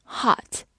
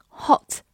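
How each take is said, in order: First: "hot" with an open American ah; American pronunciation. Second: "hot" with a short rounded British o; British pronunciation. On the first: Teacher contrasts two accents, American "hot" with open ah. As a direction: say "hot" American-style, vowel opened wide to "ah". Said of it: "美式发音hot". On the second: Teacher contrasts two accents, British "hot" with short o. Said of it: "所以英式发音hot". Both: Shown as a demonstration.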